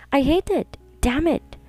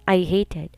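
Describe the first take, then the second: First: Higher, cracking cry of rage; anguished outburst. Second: Said in the usual way. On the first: A narrator's reading. Woman betrayed by her lover, anguished higher outburst. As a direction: let the hurt burst up.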